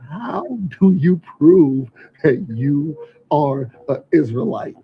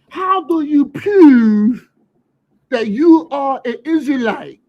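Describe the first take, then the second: First: It is said in his ordinary voice. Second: It is said in a Baltimore accent.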